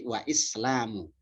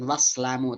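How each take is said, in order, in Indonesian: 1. Vokal setelah wa dipertahankan sebagai suku katanya sendiri. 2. Vokal setelah wa dihilangkan, sehingga kedua kata menyatu.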